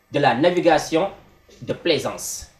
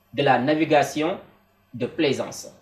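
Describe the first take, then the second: No difference in how they are said.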